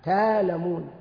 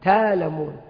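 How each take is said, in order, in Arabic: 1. يتحوّل الهمز إلى ألف مدّ طويلة. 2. يتحوّل الهمز إلى ألف مدّ طويلة.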